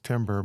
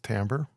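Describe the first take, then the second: First: It sounds like the word for wood. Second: It does not sound like the wood word. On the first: The speaker calls it wrong. "you could pronounce this timber" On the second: The speaker calls it right. "probably best to use timbre"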